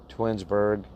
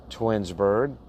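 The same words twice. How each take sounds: The two takes are said the same way.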